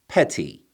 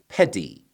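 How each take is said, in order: First: The middle consonant is a full t. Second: The middle consonant is a full d. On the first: It is the original full form. "最正确的原版读法" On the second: It follows the dictionary marking. "教条的按照字典上的标识方式来读"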